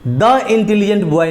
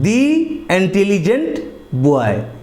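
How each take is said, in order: First: 'The' is said with a short 'uh' vowel. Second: 'The' is said with a long 'ee' vowel. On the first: The speaker calls it wrong. "नहीं पढ़ेंगे" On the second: The speaker calls it right. "T H E को हम दी पढ़ेंगे"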